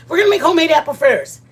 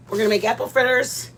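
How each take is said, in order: First: High, loud and fast; excited. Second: Said in the usual way. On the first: Real, not acted. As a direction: rush it out with delight. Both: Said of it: "I wanna make apple fritters".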